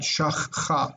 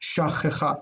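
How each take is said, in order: First: The two ch sounds run together. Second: A short vowel separates the two ch sounds. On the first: The speaker calls it wrong. "sound bad" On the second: The speaker calls it right. "we put that uh in there to divide"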